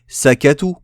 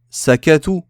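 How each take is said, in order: Both takes have the same delivery.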